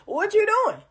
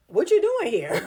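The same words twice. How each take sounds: First: Much higher, mock-baffled "What you doing?"; high incredulous. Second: Puzzled brush-off. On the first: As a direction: squeak it out in disbelief. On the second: Retold or imitated. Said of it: "I am literally like".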